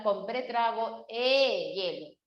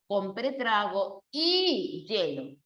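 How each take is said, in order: First: "e hielo" with a long, separate eh before "hielo"; mistaken e hielo. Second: Slow "y hielo", a long ee, then "hielo" starting with a y consonant; y before yeísmo. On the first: Teacher shows the common mistake, held eh in "e hielo". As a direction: stretch "e" as eh, then "hielo". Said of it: "ahí sí no puedes colocar e". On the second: Teacher gives the correct form, slow ee before ye in "y hielo". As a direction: draw out "y", then say "hielo" as YEH-lo. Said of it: "suena como un yeísmo". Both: Shown as a demonstration.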